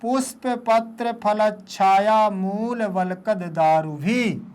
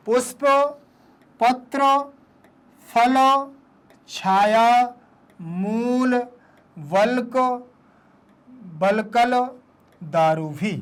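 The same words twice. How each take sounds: First: Words joined together. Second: Each word alone, long pauses between. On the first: Teacher shows pupils the whole line, words joined. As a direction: run the words together without gaps. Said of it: "फिर इसको देखो ऐसे पढ़ेंगे". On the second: Teacher models a hard line for pupils, word by word. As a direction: read it out one separate word at a time. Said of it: "पहले एक एक शब्द को". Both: Shown as a demonstration.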